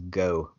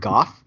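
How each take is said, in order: First: The name ends with a vowel. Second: The name ends with an f sound. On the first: The speaker calls it wrong. "I thought it was Go" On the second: The speaker calls it right. "I believe you pronounce it Goff"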